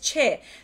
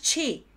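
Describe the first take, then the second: First: The vowel sounds like a Spanish e. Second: The vowel sounds like a Spanish i. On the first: The speaker calls it right. "Se parece más a una E española que una I" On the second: The speaker calls it wrong. "recordad que no es chi"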